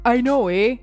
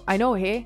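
First: The Canadian 'eh' is strongly exaggerated. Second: The Canadian 'eh' is soft and natural.

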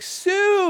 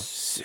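First: The name is yelled out loudly. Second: The name is whispered quietly. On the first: Someone is calling out for a friend. "somebody will be yelling for their friend" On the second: A hidden figure mimics the call to be creepy. "he whispers it from off in the distance"

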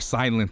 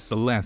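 First: The first vowel differs from the vowel in synth. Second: The first vowel matches the vowel in synth. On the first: "Or Silenth, if you want to pronounce it" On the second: "I pronounce it as Silenth, only because how do you pronounce synth? Synth"

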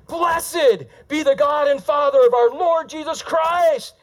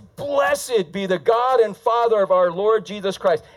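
First: The sentence is read with excited, exclamatory energy. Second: The sentence is read in a flat, plain way. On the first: The speaker calls it right. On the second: The speaker calls it wrong.

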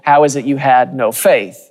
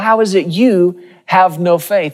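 First: The stress falls on the word faith. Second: The stress falls on the word you. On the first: The question is about their lack of faith. "the emphasis has always been on" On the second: These people above all should have had faith. "You of all people"

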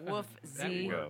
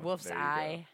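First: The name ends with an 'ee' sound. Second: The name ends with an 'eye' sound.

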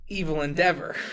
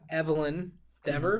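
First: The name is said quickly, run together. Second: The name is said at an ordinary pace.

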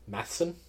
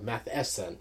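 First: The middle E sound is left out. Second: The middle E sound is clearly pronounced. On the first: The speaker calls it wrong. "was that E silent?" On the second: The speaker calls it right. "You pronounce it"

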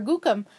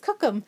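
First: The word begins with a soft G sound. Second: The word begins with a hard K sound. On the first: This is the form used where the speaker is from. "where we're from, we say Gugu, because that's short for Gookum" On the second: This is the Plains Cree form used locally. "here the dialect is Cookum"

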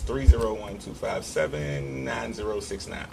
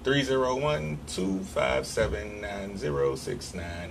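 First: The number is said at normal speed. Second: The number is said slowly.

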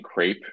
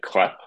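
First: The word is said with an American accent. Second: The word is said with a French accent. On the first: "instead of saying crepe" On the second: "I didn't even know how to say words in without a French accent"

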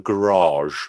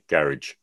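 First: The word is said with an exotic, foreign-sounding pronunciation. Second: The word is said with a plain, ordinary English pronunciation. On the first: It sounds fancy or posh. "like making the word sound exotic" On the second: It is the usual everyday way. "as opposed to most English that would say garage"

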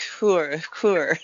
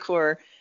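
First: The name is said with a French pronunciation. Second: The name is said with an English pronunciation. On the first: "if you're French" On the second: "But I say core"

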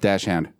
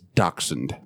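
First: The word begins with a "dash" sound. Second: The word begins with a "dacks" sound. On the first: The speaker calls it wrong. "What did I say? Dashhound?" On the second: The speaker calls it right. "it's going to drive me nuts if I don't say it. It's dachshund"

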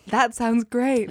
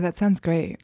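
First: It is said in a sincere, warm tone. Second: It is said in a sarcastic-sounding tone. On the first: The praise is genuinely meant. The speaker calls it right. "I meant it" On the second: The praise seems not meant. The speaker calls it wrong. "that sounded so sarcastic"

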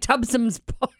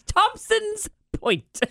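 First: The name is said as Tubson's. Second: The name is said as Thompson's. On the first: This imitates someone else's habitual mispronunciation. The speaker calls it wrong. "he's always like Tubson's Point" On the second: This is the proper way to say the name. The speaker calls it right. "say it with me"

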